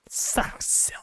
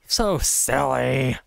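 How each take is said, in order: First: Softly whispered mock chiding; playful whisper. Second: Slow, stretched-out teasing; playful mock chiding. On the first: Player ends chiding the Mongols, playful whisper. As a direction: trail into a teasing whisper. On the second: Player belittles the screaming attackers, playful mock chiding. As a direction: draw out both words indulgently. Mock scolding of game enemies.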